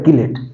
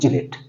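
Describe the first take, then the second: First: The word begins with a 'k' sound. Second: The word begins with a 'ch' sound. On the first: "कई बार इसको pronounce किया जाता है किलेट" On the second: "इसको बोलते हैं चिलेट"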